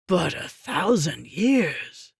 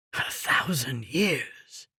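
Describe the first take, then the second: First: Said in the usual way. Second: A soft, slow stunned whisper. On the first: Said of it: "same words said aloud". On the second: A narrator's reading. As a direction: breathe it out softly and slowly, in disbelief. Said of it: "he whispered".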